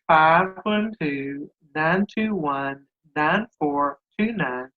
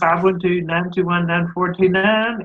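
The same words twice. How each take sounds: First: The number is said slowly. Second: The number is said fast.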